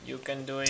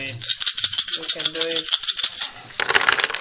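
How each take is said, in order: First: Said in the usual way. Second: Loud, slow chant of encouragement; drawn-out cheer. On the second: Real, not acted. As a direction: stretch every word like a stadium cheer. Cheering a friend's dice roll.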